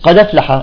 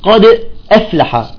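First: The two words run together without a glottal stop. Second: A glottal stop separates the two words. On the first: Some speakers shift the vowel and drop the hamza. "فيقول بعضهم" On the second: This is the standard form. "مثلا تقول قد أفلح"

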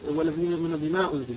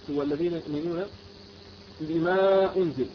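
First: The long vowel is held for two beats. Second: The long vowel is stretched to four beats. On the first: The speaker calls it right. "فقصرت المنفصل" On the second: The speaker calls it wrong. "مددت أربع حركات"

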